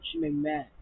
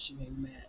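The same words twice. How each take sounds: First: Breathy whisper of frustration; voiceless whisper, real annoyance. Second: Softer. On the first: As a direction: whisper it through clenched frustration. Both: Real, not acted.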